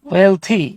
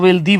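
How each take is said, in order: First: The middle consonant is a 'th' sound. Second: The middle consonant sounds like a 'd'. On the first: The speaker calls it right. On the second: The speaker calls it wrong.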